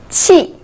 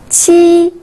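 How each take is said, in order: First: The pitch falls sharply from high. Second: The pitch stays high and level.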